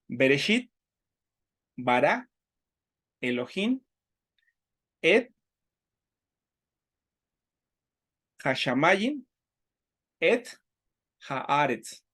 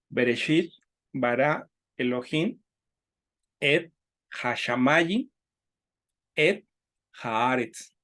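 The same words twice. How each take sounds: First: The verse is recited at a slower pace. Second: The verse is recited at a faster pace.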